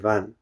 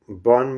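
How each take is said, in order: First: It starts with a V and has an A vowel. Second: It starts with a B and has an O vowel. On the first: "In Sanskrit" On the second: "Bon means forest in Bengali pronunciation"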